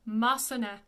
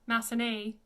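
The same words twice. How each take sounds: First: Massenet ending in an open "eh"; French Massenet, last vowel short and open; French pronunciation. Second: Massenet ending in English "ay"; anglicized Massenet with a gliding "nay" ending; mispronunciation. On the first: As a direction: say Massenet to end in "neh", no glide. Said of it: "It's an E because it's E T". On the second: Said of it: "It's not Massenet". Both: Shown as a demonstration.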